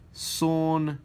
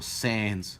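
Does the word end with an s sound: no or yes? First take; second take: no; yes. First: The word ends without an s sound. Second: The word ends with an s sound.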